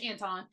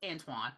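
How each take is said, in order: First: The name ends with a 'ton' sound. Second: The name ends with a 'twan' sound. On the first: This is the name as it actually is. The speaker calls it right. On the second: This is the common mistaken way to say it. The speaker calls it wrong.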